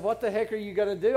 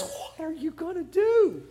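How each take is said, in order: First: Quick, unperformed quote at a lower pitch; quoted in passing. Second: Higher-pitched, comic private plea; aside to God. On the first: Retold or imitated. Listener doubting the preacher's retelling, quoting it quickly and low. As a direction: rattle the question off as a citation. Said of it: "It doesn't say in my Bible". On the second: Acted. Moses turning to God for help, in a high comic aside. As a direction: turn from the crowd and ask in a high, worried aside. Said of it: "turns and looks at God and says".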